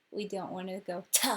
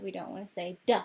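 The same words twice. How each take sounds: First: "T" said as "tuh" with extra vowel sound; wrong T with extra vowel. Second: "D" said as "duh" with extra vowel sound; wrong D with extra vowel. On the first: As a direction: add a vowel after "T". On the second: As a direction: add a vowel after "D". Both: Shown as a demonstration.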